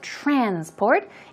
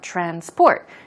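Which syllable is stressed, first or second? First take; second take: first; second. First: The stress is on the first syllable. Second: The stress is on the second syllable. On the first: It is a noun. "When the stress goes on the first syllable, as I said, transport, it's used in the noun form" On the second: It is a verb meaning to move something. "Stress goes on the second syllable, it then becomes a verb"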